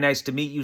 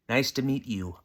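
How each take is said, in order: First: The phrase is said quickly and run together. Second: The phrase is said slowly with clear words. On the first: The speaker calls it wrong. "I talked too fast that time" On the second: The speaker calls it right. "You gotta enunciate"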